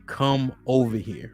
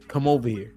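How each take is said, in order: First: It is said in a stern, serious tone. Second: It is said in a soft, casual tone.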